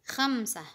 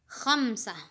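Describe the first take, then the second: Both takes have the same delivery.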